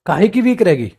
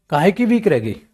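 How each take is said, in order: Both takes have the same delivery.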